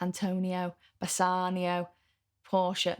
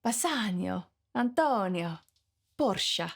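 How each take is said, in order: First: Names in a Mancunian accent. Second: Names with an exotic Italian ring; Italian accent. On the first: English teacher showing how they say Italian names, Mancunian accent. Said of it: "That's my Mancunian accent coming through". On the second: Part-Italian teacher showing how the names should sound, Italian accent. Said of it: "Really, it should be". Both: Shown as a demonstration.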